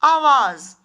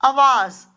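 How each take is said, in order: First: आवाज़ with long opening "aa", loud; correct form. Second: आवाज़ with short first vowel, "avaaz"; wrong form. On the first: Teacher gives children the right word, carefully pronounced. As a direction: say आवाज़ as "AA-vaaz", first vowel held long. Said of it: "सही शब्द होता है". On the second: Teacher reads out the error to children, mispronounced. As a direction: say आवाज़ as "a-VAAZ", opening short and loud. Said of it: "आवाज़ नहीं होता". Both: Shown as a demonstration.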